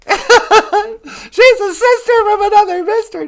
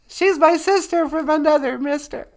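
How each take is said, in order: First: Laughing through the line, slow and loud. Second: Said in the usual way. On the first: Real, not acted. Host laughing as she greets her sister on air. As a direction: crack up while teasing.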